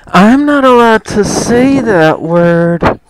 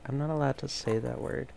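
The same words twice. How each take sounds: First: It is said loudly. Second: It is said quietly.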